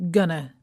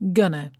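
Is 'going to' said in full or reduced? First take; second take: reduced; reduced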